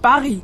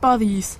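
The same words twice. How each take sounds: First: It is said with a French pronunciation. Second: It is said with a German pronunciation. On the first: The speaker calls it right. "Man sagt Paris" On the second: The speaker calls it wrong. "man sagt nicht Paris"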